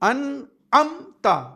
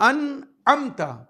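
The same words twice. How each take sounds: Both takes have the same delivery.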